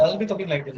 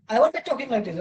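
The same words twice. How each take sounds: First: Slightly lower, listless delivery of a bored teacher; bored demo. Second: Said in the usual way. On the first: Shown as a demonstration. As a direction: let the energy drain out, a touch flat. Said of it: "If I'm bored". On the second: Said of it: "Right now I'm active".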